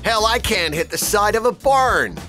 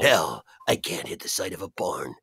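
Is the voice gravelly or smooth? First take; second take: smooth; gravelly. First: The voice is smooth, not gravelly. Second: The voice is rough and gravelly. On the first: The speaker calls it wrong. "He didn't sound anything like that" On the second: The speaker calls it right. "He was much more gravelly"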